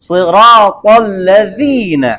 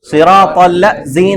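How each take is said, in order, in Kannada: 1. ನಾಲಿಗೆಯ ತುದಿ ಮೇಲಿನ ಮುಂಭಾಗದ ಹಲ್ಲುಗಳಿಗೆ ತಾಗುತ್ತದೆ. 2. ಇದು ಸರಳವಾದ ಝೇಂಕರಿಸುವ 'z' ಶಬ್ದ. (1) "ನಾಲ್ಗೆ ತುದಿ ಮೇಲಿನ ಮುಂಭಾಗದ ಹಲ್ಲಿದೆಯಲ್ಲ ಅದರ ತುದಿಗೆ ಟಚ್ ಮಾಡಬೇಕು" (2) "ಸಿರಾತಲ್ಲ ಝೀನ ಅಂತ ಹೇಳ್ತಾರೆ. ಝೀನ ಅಲ್ಲ"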